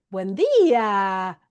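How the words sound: It is said in a very high pitch. "así bien agudo"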